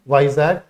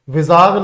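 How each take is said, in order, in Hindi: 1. पहले अक्षर में 'eye' स्वर है। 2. पहले अक्षर में छोटा 'i' स्वर है। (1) "याद रखना" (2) "नहीं"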